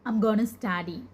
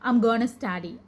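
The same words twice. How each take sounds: First: 'Going to' is reduced to 'gonna'. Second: 'Going to' is reduced to 'gonna'.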